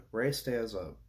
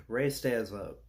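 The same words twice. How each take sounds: The two takes are said the same way.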